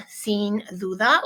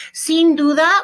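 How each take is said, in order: First: Said in the usual way. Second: Sin duda said higher and louder; bright model phrase. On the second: Shown as a demonstration. Teacher presenting new Spanish phrase to class, louder and higher. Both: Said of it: "teaching the phrase".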